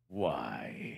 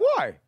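First: The question sounds dark and ominous. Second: The question sounds jaunty and cheerful. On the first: "I was giving an impression of a dark question" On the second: "I want to know jaunty questions"

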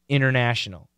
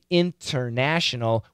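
First: The middle T sound is dropped. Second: The middle T sound is clearly pronounced. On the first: The speaker calls it right. "We say international. We get rid of the T" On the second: The speaker calls it wrong. "Americans don't say international"

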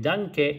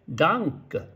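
First: The final vowel is said clearly and fully. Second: The final vowel is very weak, almost dropped. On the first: The speaker calls it wrong. "日本人のようにダンケじゃなくて" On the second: The speaker calls it right. "ケは弱くなって"

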